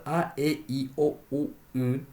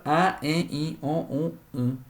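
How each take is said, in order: First: A, e, i, o, u, y said orally, without nasal resonance; vocales orales. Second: A, e, i, o, u, y said with nasal resonance; vocales nasales. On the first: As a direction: sound 'a, e, i, o, u, y' through the mouth only. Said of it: "Cuando la vocal oral". (vocales orales a, e, i, o, u, y, sin nasalizar) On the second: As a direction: nasalise each vowel in 'a, e, i, o, u, y'. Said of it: "Cuando la vocal nasal". (vocales a, e, i, o, u, y nasalizadas) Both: Shown as a demonstration.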